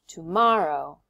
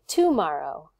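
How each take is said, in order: First: The stress falls on the middle syllable. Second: The stress falls off the middle syllable. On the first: The speaker calls it right. "I say tomorrow" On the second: The speaker calls it wrong. "I don't say tomorrow"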